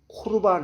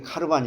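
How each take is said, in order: First: The first vowel is an 'o' sound. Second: The first vowel is an 'a' sound. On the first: The speaker calls it right. "코르반 해야 돼" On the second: The speaker calls it wrong. "카르반으로 읽으면 안 되고"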